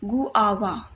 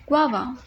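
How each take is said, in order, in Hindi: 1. शुरुआत दो अलग अक्षरों में बँटी है। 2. शुरुआत जल्दी से एक अक्षर में मिल जाती है। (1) "गु आवा नहीं होता" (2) "आप इसको जल्दी से बोलेंगे"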